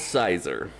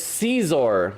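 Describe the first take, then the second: First: The first vowel is a long i sound. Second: The first vowel is an ee sound. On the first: "I call it Sizer" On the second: "it's Caesar, like little Caesars"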